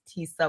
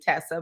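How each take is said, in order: First: The first vowel is long, as in 'see'. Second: The first vowel is short, as in 'bed'. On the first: This is the name's actual pronunciation. The speaker calls it right. "but it's Tisa" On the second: This is how some people mispronounce it. The speaker calls it wrong. "They'll say Tessa"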